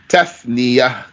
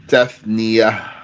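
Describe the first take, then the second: Both takes have the same delivery.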